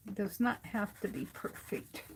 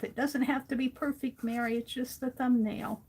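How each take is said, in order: First: Softly leaning on "not" in "does not"; "not" stretched and falling; stress on NOT. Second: Coaxing herself, lightly higher; gentle pep talk to herself; reassuring self-talk. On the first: Shown as a demonstration. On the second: Retold or imitated. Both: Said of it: "I keep telling myself".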